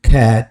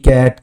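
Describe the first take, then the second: First: The first sound is an aspirated k. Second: The first sound is an unaspirated k. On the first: The speaker calls it right. "যদি আমরা একটু ভিন্নভাবে করি" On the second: The speaker calls it wrong. "আমরা বলে থাকি ক্যাট"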